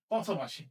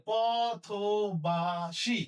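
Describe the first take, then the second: First: Said in the usual way. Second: পথবাসী drawn out slowly with a rise; slow demo. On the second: Shown as a demonstration. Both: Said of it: "তালব্য স মতো উচ্চারণ".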